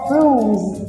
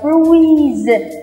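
First: The vowel is a single long u. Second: The vowel glides from u to i. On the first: The speaker calls it right. "mà là âm u dài, u. Ok, vậy nó sẽ là bruise" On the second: The speaker calls it wrong. "Các bạn đừng đọc là bruise, không phải là ui ui"

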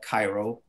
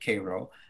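First: The name is said the way its spelling suggests. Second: The name is said the way locals say it. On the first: This is how the written name looks. "it looks like Cairo" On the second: This is how the town's people say it. "but they pronounce it Cairo"

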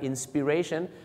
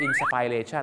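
First: The second syllable has a short 'i' vowel. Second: The second syllable has an 'ai' vowel. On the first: The speaker calls it right. "สระอินะครับ" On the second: The speaker calls it wrong. "เห็นสระไอเนี่ยนะฮะกลายเป็นนามปุ๊บชาวไทยก็ออกเสียงว่า"

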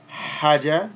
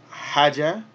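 The two takes are said the same way.

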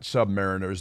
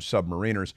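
First: It is said with the British pronunciation. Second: It is said with the American pronunciation. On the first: "and not submariners" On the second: "but we call them submariners"

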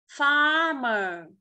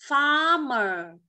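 Both takes have the same delivery.

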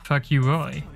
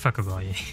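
First: The middle syllable sounds like the word 'you'. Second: The middle syllable is a short, weak 'a' sound. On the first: The speaker calls it wrong. "I don't care if that's not how you pronounce it, that's how I'm saying it" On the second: The speaker calls it right. "It's actually Fuck a Roy"

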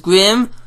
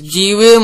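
First: It is said as one word, grim. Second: The letter G is said separately before rim. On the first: "or pronounced as Grim" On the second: "which is G-Rim"

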